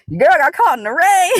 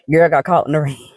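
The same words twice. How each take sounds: First: High, loud cry breaking into real laughter; laughing holler. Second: Said in the usual way. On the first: Real, not acted. Walker back at the car after rain, laughing holler. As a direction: holler it out and crack up.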